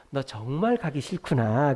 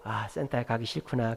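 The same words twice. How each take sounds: First: 정말 stretched out slowly with rising pitch; emphatic empathy. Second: Low, softer acknowledgement; empathizing. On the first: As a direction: lean slowly on 정말 to show you understand. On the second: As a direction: gently reflect the child's feeling back. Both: Retold or imitated. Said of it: "이렇게 공감해 주는 게".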